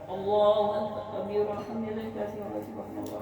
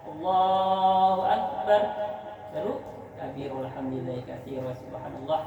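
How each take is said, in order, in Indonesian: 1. Langsung berlanjut tanpa jeda. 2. Ada jeda setelah 'Allahu akbar'. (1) "Gak ada jedanya" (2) "caranya gini kira-kira ya"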